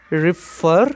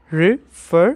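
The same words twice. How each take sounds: First: Said in the usual way. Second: "refer" in two parts, "re", pause, "fer"; split into syllables. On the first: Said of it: "Examples are". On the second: Shown as a demonstration. Teacher shows students the two syllables, saying "refer" split as re, fer. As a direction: break "refer" apart after "re". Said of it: "two syllables".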